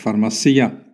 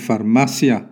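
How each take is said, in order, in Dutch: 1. De klemtoon valt waar het Italiaans hem plaatst. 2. De klemtoon valt waar het Spaans hem plaatst.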